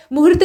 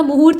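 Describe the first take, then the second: First: मुहूर्त said 'mu-hurt', second vowel clipped short. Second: मुहूर्त said 'mu-hoort', long second vowel. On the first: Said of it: "मुहूर्त नहीं होता". (मुहूर्त को छोटे उ से 'मुहुर्त' बोलें) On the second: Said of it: "मुहूर्त होता है". (मुहूर्त में 'हू' दीर्घ बोलें) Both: Shown as a demonstration.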